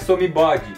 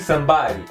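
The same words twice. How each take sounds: First: The D is clear and the vowel after it is kept. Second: The D sounds like an R and the vowel drops. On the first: The speaker calls it wrong. "não é somebody" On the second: The speaker calls it right. "pronuncie o D nessa palavra com som de R e corte o E nessa palavra"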